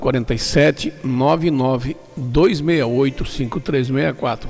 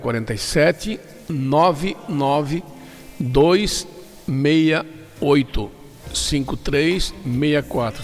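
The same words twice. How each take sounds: First: The number is said at normal speed. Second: The number is said more slowly.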